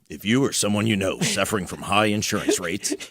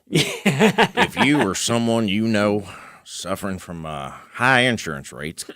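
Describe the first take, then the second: First: It is said in a natural, ordinary voice. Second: It is said in a put-on salesman voice.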